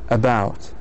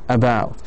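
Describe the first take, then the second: The two takes are said the same way.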